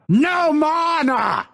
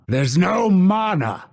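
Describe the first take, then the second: First: High, drawn-out shout; frustrated yell. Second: Raised pitch, contained frustration; mild frustration. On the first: Fighter out of mana, frustrated yell. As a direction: yell it out in exasperation. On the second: Fighter out of mana, mildly frustrated. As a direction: complain without yelling. Milder of escalating takes. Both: Acted.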